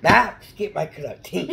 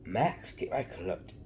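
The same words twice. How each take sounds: First: Loud, high call to Max; shouting Max. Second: Said in the usual way. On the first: Pretend. Kid calling his dog Max in a loud, high Grinch voice.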